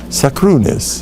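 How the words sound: It has Ashkenazi vowels and ends in -is. The speaker calls it right. "Let's say it right"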